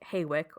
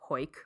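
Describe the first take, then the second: First: Two syllables, starting with an 'ay' vowel. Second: One syllable with an 'oy' vowel. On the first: It is read the way it is spelled. The speaker calls it wrong. "it looks like Haywick" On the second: This is how locals actually say it. The speaker calls it right. "but it's pronounced Hoyk"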